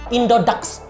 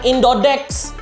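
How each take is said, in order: First: The last syllable is said as 'dax'. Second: The last syllable is said as 'dex'. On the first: The speaker calls it right. "Enggak, Indodax" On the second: The speaker calls it wrong. "bacanya bukan Indodex. Mentang-mentang A dibacanya E"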